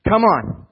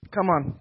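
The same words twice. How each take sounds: First: High and loud call; preacher's punchy rally; loud rallying cry. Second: Said in the usual way. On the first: Real, not acted. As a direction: rouse the room. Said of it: "crowd rallying". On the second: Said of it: "repeat softer".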